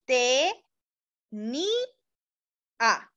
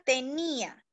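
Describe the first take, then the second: First: "te, ni, a" with a clear pause after each syllable; slow teacher syllabification; split into syllables. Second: Said in the usual way. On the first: Shown as a demonstration. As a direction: break "tenía" into te, ni, a for the class. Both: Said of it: "Entonces diríamos".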